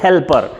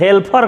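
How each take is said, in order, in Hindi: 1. यह मानक उच्चारण में बोला गया है। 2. यह देहाती गाँव के लहजे में बोला गया है। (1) "लेकिन उसको कहा जाता है हेल्पर" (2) "अपने गांव के देहाती ठेठ भाषा में हेल्पर कहते हैं"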